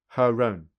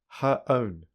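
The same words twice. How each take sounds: First: An r sound joins the two words together. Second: The words are said with no r between them. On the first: "secondly with linking" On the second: "Firstly without linking"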